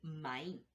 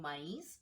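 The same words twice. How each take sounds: First: The word is said with one part left out. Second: The word is said with all its sounds. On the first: The speaker calls it wrong. "pueden decir" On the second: The speaker calls it right. "en lugar de decir"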